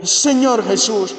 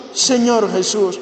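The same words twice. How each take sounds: The two takes are said the same way.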